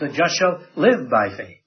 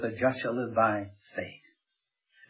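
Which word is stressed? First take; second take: live; faith. First: The word live is stressed. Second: The word faith is stressed. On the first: The focus is on how the righteous live. "puts the emphasis on the line" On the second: The focus is on what the righteous live by. "he puts the emphasis on the faith"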